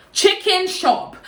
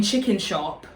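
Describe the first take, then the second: First: "Chicken shop" slow and high, each word set apart; emphatic repeat. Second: Said in the usual way. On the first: Real, not acted. Stressing where they went, "Chicken shop" slow and high.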